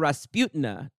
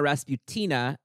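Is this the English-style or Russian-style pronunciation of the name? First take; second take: Russian-style; English-style. First: The name is said the Russian way. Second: The name is said the English way. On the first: "a Russian listener wrote in on Twitter to inform me that it should be pronounced" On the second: "not Ilyana Rasputina, as Leah and I said a bunch"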